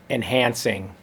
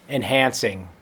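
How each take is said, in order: Both takes have the same delivery.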